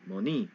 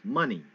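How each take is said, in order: First: The stress is on the second syllable. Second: The stress is on the first syllable. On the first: The speaker calls it wrong. "rising up on the wrong um, syllable" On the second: The speaker calls it right. "Rise up on the on the front"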